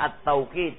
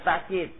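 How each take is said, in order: First: The middle consonant is a w sound. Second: The middle consonant is a glottal stop. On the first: The speaker calls it right. "Lebih fasih dibaca at-tauqid" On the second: The speaker calls it wrong. "bukan ta'kid"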